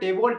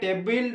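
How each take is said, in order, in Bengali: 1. শেষ অক্ষরটি 'bol' এর মতো উচ্চারিত হয়। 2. শেষ অক্ষরটি 'bil' এর মতো উচ্চারিত হয়। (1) "টেবল উচ্চারণ পে" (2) "টেবিল বাং উচ্চারণ তে"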